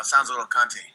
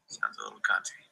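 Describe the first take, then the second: First: Said in the usual way. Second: Much lower, softer mocking repeat; mock deep voice. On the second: Streamer echoing his own remark in a deep mocking voice. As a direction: drop the voice way down to mock it.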